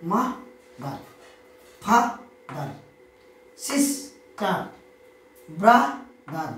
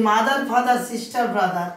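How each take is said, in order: First: "মা দার, ফা দার, sister, brother" each broken in two beats; teacher slowly separating the two syllables of "sister" and the other words; split into two syllables. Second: Said in the usual way. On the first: Shown as a demonstration. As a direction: pause inside each word: মা-দার, ফা-দার, সিস-টার, ব্রা-দার. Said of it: "উচ্চারণ করতে গিয়ে আমাদের দুবার". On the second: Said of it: "এরা সকলে হচ্ছে কি?".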